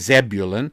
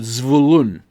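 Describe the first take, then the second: First: The stress falls early, on the first syllable. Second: The stress falls late, on the second part. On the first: "in English we often we say" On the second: "in Hebrew the emphasis goes on the second part of the word"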